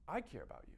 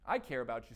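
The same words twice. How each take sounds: First: It is said in a calm, open tone. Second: It is said in an irritated, defensive tone. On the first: The speaker is inviting exploration of the feeling. The speaker calls it right. "we're doing this in a non-defensive way" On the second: The speaker is rebutting the other's feeling. The speaker calls it wrong. "You do not want to say"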